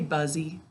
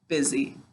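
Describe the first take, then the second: First: The first syllable is said like buzz. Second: It is said in its ordinary everyday pronunciation.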